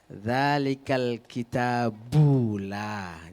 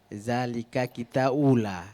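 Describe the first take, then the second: First: Every letter is articulated clearly and fully. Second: The letters are slurred and some sounds dropped. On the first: The speaker calls it right. "Jadi harus jelas dia" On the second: The speaker calls it wrong. "tadi zalika ula"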